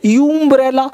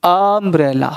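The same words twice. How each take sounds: First: यूम्ब्रेला begun with a long 'yoo'; wrong pronunciation. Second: अम्ब्रेला begun with a drawn open 'ah', low and falling; correct pronunciation. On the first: Teacher quizzing students with the mistake, wrong pronunciation. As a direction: give यूम्ब्रेला the letter-name U at the start. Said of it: "अब यूम्ब्रेला नहीं बोलते". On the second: Teacher answering the quiz, correct pronunciation. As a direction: open अम्ब्रेला on 'um', not 'you'. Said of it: "क्या बोलते हैं?". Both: Shown as a demonstration.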